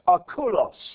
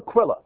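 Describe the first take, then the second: First: The name ends with an 'os' sound. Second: The name ends with an 'ah' sound. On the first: This is the original Greek form of the name. The speaker calls it right. "His name is actually pronounced Akulos" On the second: This is the familiar way the name is said. The speaker calls it wrong. "We call him Aquila"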